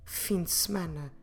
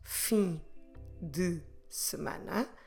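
First: The words are run together smoothly. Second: Each word is said separately, apart.

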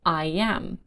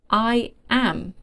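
First: An extra y sound links the words. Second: No extra sound links the two words.

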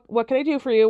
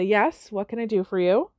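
First: It is said curtly and impatiently. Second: It is said calmly and patiently.

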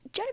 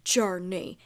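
First: The name is said in a sweet, affectionate tone. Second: The name is said in a stern, scolding tone. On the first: The dog is being called lovingly. "but if I'm like" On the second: The dog is doing something wrong. "my tone was like"

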